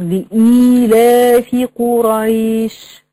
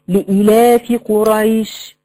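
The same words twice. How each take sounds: First: The vowel is lengthened to two beats. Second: The vowel is cut short without lengthening. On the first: The speaker calls it right. "لا طبعا هي المفروض" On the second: The speaker calls it wrong. "ما تجيش الطالبه تقطع"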